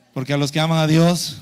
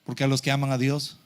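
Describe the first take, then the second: First: Verse called out loudly, pitched low; loud, declamatory scripture prompt; loud recitation. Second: Said in the usual way. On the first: Real, not acted. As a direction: lead the congregation in the verse at full volume. Repeats verse louder for congregation.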